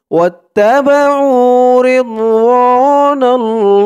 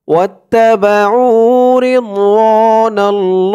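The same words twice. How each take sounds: First: Slow, higher sung recitation; melodic recitation. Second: Slow tajweed recitation; recite along. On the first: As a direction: chant it like a qari. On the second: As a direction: model it slowly for the class to repeat. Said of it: "আমার সাথে বলুন". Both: Shown as a demonstration.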